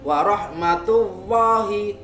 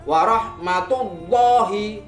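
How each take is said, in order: First: The L sound is thin and light. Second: The L sound is heavy, with rounded lips. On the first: The speaker calls it wrong. "tipis tidak boleh" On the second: The speaker calls it right. "harus dibaca tafkhim atau tebal"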